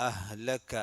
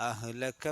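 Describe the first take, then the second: The two takes are said the same way.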